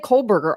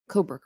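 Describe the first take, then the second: First: An L sound is added after the first vowel. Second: No L sound follows the first vowel.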